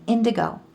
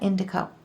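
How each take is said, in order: First: The middle consonant is a hard G sound. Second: The middle consonant is a K sound. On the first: The speaker calls it right. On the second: The speaker calls it wrong. "not indico"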